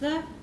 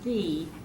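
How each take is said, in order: First: The vowel is a short, weak 'uh'. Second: The vowel is a long, full 'ee'. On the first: It is the form used before a consonant. "that is pronounced the, when it comes before a consonant" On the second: It is the form used before a vowel. "It's pronounced the when it comes before a vowel"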